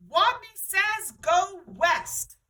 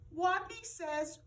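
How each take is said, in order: First: Loud, high slow Wadney says; booming. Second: Small slow squeak of Wadney says; whisper-small, scared Wadney says; timid squeak. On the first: Wadney commands the players, booming. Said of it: "In a voice so strong". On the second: Shy Wadney starts the game, timid. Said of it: "and squeaked". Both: A narrator's reading.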